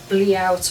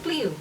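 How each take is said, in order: First: The word is said with an anglicized guess. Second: The word is said with French pronunciation. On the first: The speaker calls it wrong. "no idea how you pronounce that word" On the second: The speaker calls it right. "it's French, it's a bliu"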